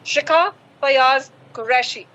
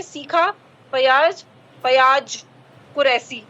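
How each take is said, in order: First: शिखा फयाज कुरैशी with clear sh and z; crisp sh in शिखा and कुरैशी, z ending फयाज; correct name pronunciation. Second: सीखा फयाज कुरैशी with s for sh and j for z; mispronounced name. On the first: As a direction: say the name carefully, sh as sh. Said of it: "मेरा नाम है". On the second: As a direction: turn every sh into s: "seekha", "kuresi". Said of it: "इस हिसाब से तो आप मेरा नाम जब बोलेंगे". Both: Shown as a demonstration.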